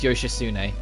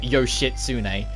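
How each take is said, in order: First: The T sound is left out entirely. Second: The T sound is clearly pronounced. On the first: The speaker calls it right. "you don't pronounce the T at all. It's Yoshitsune" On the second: The speaker calls it wrong. "It's not Yoshitsune. I know a lot of people like to call it that"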